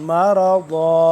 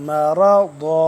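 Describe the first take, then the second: Both takes have the same delivery.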